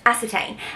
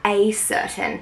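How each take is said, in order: First: It ends with a stressed 'tain' sound. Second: It is said like the phrase 'a certain'. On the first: The speaker calls it right. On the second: The speaker calls it wrong.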